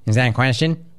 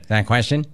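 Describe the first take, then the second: First: Lightly voiced Rex Lee, rising on question; Rex Lee impression. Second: Lightly voiced Rex Lee, rising at the end; a hint of Rex Lee, asking the question flat; Rex Lee impression. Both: Host teasing Will as Rex Lee, lightly voiced. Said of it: "let me go Rex Lee for you".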